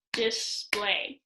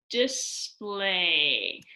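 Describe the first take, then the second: First: "display" in two shorter, separate beats; clapped out. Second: "display" stretched out in two slow syllables; sounded out. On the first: Teacher clapping out syllables for pupils, "display" in two beats. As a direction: say "dis-play" as two beats, less drawn out. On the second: Teacher finding syllables in a word for pupils, "display" sounded out slowly. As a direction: draw out "dis-play" syllable by syllable. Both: Shown as a demonstration. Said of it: "find syllables by clapping out a word".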